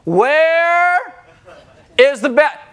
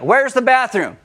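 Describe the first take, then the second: First: The question is said noticeably louder. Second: The question is said at a normal volume. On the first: "We just want to talk louder" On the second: "We just want to talk louder"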